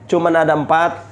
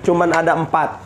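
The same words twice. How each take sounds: The two takes are said the same way.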